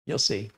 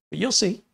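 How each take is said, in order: First: Said in the usual way. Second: Higher, sing-song "you'll see"; teasing. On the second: Real, not acted. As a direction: lilt "you'll see" up like a knowing tease. Taunting rise vs plain repeat.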